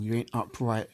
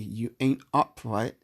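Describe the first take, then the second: First: It is said at normal speed. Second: It is said slowly.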